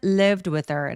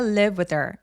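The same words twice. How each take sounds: First: The d sound is kept but very light. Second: The d sound is dropped completely. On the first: "드가 아주 가볍게 처리된다" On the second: "중간에 D를 날리고 발음을 안 하는 경우"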